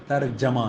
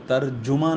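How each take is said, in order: First: ترجمہ as "tarjama", with a after j; correct pronunciation. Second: ترجمہ as "tarjuma", with u after r; wrong pronunciation. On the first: Teacher giving students the original word, correct pronunciation. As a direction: say ترجمہ as "tar-JA-ma". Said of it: "اصل جو لفظ ہے". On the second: Teacher showing students the Urdu mistake, wrong pronunciation. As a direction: say ترجمہ the common wrong way, "tar-JU-ma". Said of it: "وہ ترجمہ نہیں ہے". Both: Shown as a demonstration.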